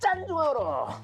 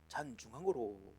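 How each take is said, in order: First: It is said forcefully, with strong energy. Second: It is said gently, with little force. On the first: The speaker calls it right. "배에 힘을 주고 해가지고" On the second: The speaker calls it wrong. "충청도 버전으로 점잖게 했습니다. 이렇게 잔중앙으로 뭔가 점잖기는 한데 좀 힘이 없어"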